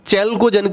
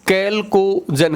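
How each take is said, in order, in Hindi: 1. यह शब्द 'ch' ध्वनि से शुरू होता है। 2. यह शब्द 'k' ध्वनि से शुरू होता है। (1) "कहीं कहीं इसको प्रोनाउंस चैल्कोजन के नाम से भी लिखा होगा" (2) "कैल्कोजन आप लोग इसको कह सकते हैं"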